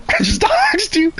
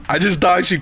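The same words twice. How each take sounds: First: Much higher, slower "I just doxed you."; high-pitched teasing singsong; squeaky mock apology. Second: Said in the usual way. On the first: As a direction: squeak it out like a cartoon sorry.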